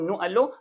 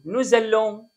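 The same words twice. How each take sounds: First: Said in the usual way. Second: "نو زالون" linked with a clear z; z liaison. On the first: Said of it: "بدل ما أقول". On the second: Shown as a demonstration. Teacher correcting to the nicer pronunciation, "نو زالون" with z liaison. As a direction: join the words with a z, "نو زالون". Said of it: "بدل ما أقول نو ألون".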